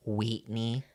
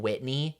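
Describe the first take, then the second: First: Wheatney, the I stretched to a long EE; Whitney said as Wheatney in a country accent; country pronunciation. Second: Said in the usual way. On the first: Shown as a demonstration. Explaining how a country accent turns I sounds into EE. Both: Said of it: "you go".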